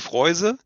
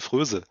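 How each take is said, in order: First: The vowel is a gliding oi sound. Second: The vowel is a rounded front ö sound. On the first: This is how it is said in Cuba. "in Kuba sagen sie" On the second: This is the German reading of the spelling. "würde man deutsch aussprechen"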